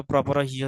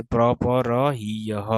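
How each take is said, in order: First: Said in the usual way. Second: প্রপর হিয়হ slowly, pra-pa-ra hee-ya-ha; slow teacher's breakdown of প্রপর হিয়হ; syllable by syllable. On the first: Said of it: "আগের মতো". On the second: Shown as a demonstration. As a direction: sound out প্রপর হিয়হ in separate, drawn syllables. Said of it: "আগের মতো প্রপর হিয় হয়ে যাবে".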